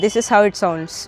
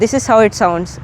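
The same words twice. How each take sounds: First: The voice is recorded at a quieter level. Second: The voice is recorded at a louder level. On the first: "ఇప్పుడు ఇది minus twelve లెవెల్లో ఉంది" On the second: "ఇప్పుడు ఇది zero లెవెల్లో ఉంది"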